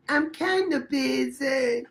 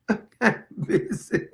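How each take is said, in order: First: Slow, drawn-out kinda, a light parody; a hint of the ad guy's brush-off; mock ad voice. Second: Giggling through the line; can't hold it together, laughing; repeating the joke while cracking up. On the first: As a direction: stretch it out like the ad. Parroting the ad's line. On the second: Real, not acted.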